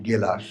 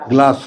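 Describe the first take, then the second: First: A vowel separates the g and the l. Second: The g and the l form one cluster. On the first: The speaker calls it right. "শুদ্ধ বাংলা কি? গেলাস" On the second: The speaker calls it wrong. "গ্লাস না"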